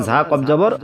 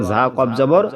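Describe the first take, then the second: No difference in how they are said.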